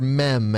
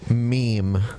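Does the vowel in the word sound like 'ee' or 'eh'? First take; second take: eh; ee. First: The vowel is a short 'eh' sound. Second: The vowel is a long 'ee' sound.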